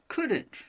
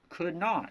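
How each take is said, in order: First: The words are merged into one contraction. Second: Both words are said in full. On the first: The speaker calls it right. "it becomes couldn't" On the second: The speaker calls it wrong. "Instead of could not"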